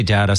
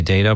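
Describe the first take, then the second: First: "data" said as DAT-uh; short-A pronunciation. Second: "data" said as DAY-tuh; long-A pronunciation. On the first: Host showing his preferred word, "data" as DAT-uh. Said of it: "I say data". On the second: Host showing what some people say, "data" as DAY-tuh. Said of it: "some people say data". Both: Shown as a demonstration.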